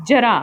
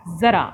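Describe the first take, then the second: First: जरा with plain j; जरा said with ज as in jar; without nukta. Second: ज़रा with z sound; ज़रा starting with a clear z; with nukta. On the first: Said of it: "इन शब्दों को बोलकर पढ़िए". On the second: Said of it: "अंतर है आवाज़ में". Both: Shown as a demonstration.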